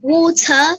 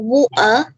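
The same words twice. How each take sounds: First: The middle t is a full t sound. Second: The middle t is a glottal stop.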